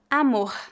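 The final R is strong.

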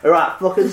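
It is said in a Mancunian accent.

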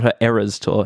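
Eras is said with the American vowel. The speaker calls it wrong. "That's E-R-R-O-R, era. It's not her Eras tour"

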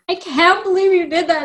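It is said in a very emotional way.

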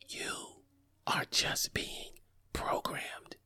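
It is whispered quietly.

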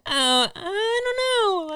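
It is said in a put-on girl's voice.

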